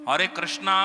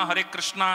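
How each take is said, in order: No difference in how they are said.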